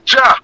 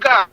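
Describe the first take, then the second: First: The name begins with a J sound. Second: The name begins with a hard G sound. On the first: The speaker calls it right. "No, it's a J" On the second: The speaker calls it wrong. "We should pronounce the J like a G"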